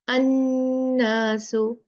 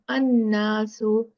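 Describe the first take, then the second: First: The nasal n sound is held long. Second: The nasal n sound is cut short. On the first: The speaker calls it right. "See how I'm extending the gunna?" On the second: The speaker calls it wrong. "I'm not saying"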